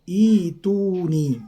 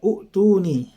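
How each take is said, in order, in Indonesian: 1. Kata ini dimulai dengan bunyi 'i'. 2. Kata ini dimulai dengan bunyi 'u'. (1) "kita ganti dengan ituni" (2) "itu biasanya kita baca seperti itu"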